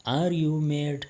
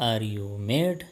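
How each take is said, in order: First: Are you mad, slowed, leaning on are; slow teaching repeat. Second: Said in the usual way. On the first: Shown as a demonstration. Teacher repeats the question slowly for Pashto learners. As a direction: stretch it out for learners to echo.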